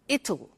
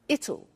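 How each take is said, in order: First: It is contracted into one short word. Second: It is contracted into one short word.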